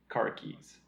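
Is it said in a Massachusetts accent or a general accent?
general. It is said in a general American accent.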